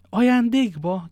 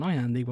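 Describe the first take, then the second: First: High, loud, drawn-out astonished question; exclaiming. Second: Said in the usual way. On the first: A narrator's reading. D'Artagnan reacting to Porthos's horse gift, exclaiming. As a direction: cry it out in disbelief, stretching the word. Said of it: "kiáltott fel D'Artagnan". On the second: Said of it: "felelte Porthos".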